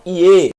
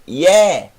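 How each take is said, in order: First: The vowel is a closed e sound. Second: The vowel is an open e sound. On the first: The speaker calls it wrong. "Não Ie" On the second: The speaker calls it right. "mas Ye. Agudo, aberto"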